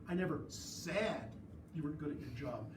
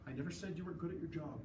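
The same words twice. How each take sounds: First: The word "said" is emphasized. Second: No word is given special emphasis. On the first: It was thought or written but not spoken. "I didn't say it, but I thought it" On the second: The words are meant at face value. "absent tone and absent emphasis"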